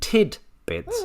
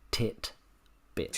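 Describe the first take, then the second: First: The first syllable ends with a d sound. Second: The first syllable ends with a t sound. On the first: The speaker calls it right. "I'm pretty sure it's tid bits" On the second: The speaker calls it wrong. "not tit bits"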